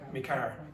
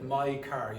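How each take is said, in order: First: The first word sounds like 'me'. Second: The first word sounds like 'my'. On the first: "you might hear me car" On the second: "Instead of my car"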